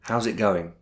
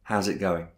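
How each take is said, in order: Both takes have the same delivery.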